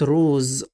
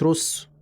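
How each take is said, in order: First: The word ends with a buzzing z sound. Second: The word ends with a hissing s sound. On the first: The speaker calls it right. "انا قلت روز ز" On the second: The speaker calls it wrong. "مش روس"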